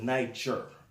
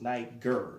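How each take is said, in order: First: The name is said with a French pronunciation. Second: The name is said with its original pronunciation. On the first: This is the name imposed by conquerors. The speaker calls it wrong. "France, French. J, the Niger. You know, pronouncing it like that" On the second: The speaker calls it right. "But originally it was Niger"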